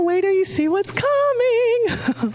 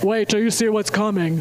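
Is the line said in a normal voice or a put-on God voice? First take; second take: normal; God voice. First: It is said in the speaker's ordinary voice. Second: It is said in a put-on booming God voice. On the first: "That wasn't a God voice" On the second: "Except he does it in a God voice"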